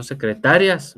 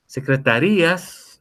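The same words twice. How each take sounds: First: "secretarias" with the stress on "ta", no break in "rias"; "secretarias" said as se-cre-TA-rias. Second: "Secretarías" slowly, with the stress on the "í"; "Secretarías" said as se-cre-ta-RÍ-as. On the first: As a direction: punch the "ta" in "secretarias". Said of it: "no secretarias". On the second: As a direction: stretch and lean on the "rí" in "Secretarías". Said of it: "Lleva tilde en la I". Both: Shown as a demonstration.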